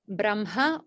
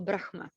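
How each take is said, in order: First: "Brahma" said BRAM-ha, m before the h; Brahma with m first. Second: "Brahma" said BRAKH-ma, h before the m; Brahma with h first. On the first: Teacher contrasting two pronunciations, "Brahma" as BRAM-ha. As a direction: say "Brahma" with the h after the m. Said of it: "when it comes to the pronunciation of". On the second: Teacher giving the alternative, "Brahma" as BRAKH-ma. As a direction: say "Brahma" as written, h then ma. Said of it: "the pronunciation of Brahma". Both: Shown as a demonstration.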